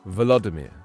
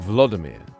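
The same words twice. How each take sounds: First: The V sound is clearly pronounced. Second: The V sound is dropped or weakened. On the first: The speaker calls it right. "I've learned how to say his name" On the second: The speaker calls it wrong. "I was doing Volodymyr. You got to pronounce the V"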